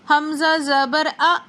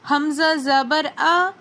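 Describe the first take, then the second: First: The final vowel is cut off with a jolt. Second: The final vowel is short and smooth. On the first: The speaker calls it wrong. "Hamza को झटका देकर पढ़ना है, ... ये भी गलत हो जाएगा" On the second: The speaker calls it right. "बल्कि मारूफ तरीके से पढ़ेंगे"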